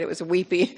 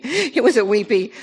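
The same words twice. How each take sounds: First: Said in the usual way. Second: Laughing through the words, louder and higher. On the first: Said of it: "repeats the phrase laughing". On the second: Real, not acted. Speaking about her wedding, laughing through "it was a weepy".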